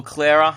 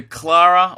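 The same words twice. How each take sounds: First: "Clara" with an "air" vowel, like Clair-ra; alternative pronunciation. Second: "Clara" with a broad "ah", like Clah-ra; first pronunciation. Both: Shown as a demonstration. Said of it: "still don't know how to pronounce your name".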